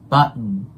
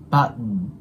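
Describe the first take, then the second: First: The t sound is dropped, going straight to n. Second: The t sound is dropped, going straight to n.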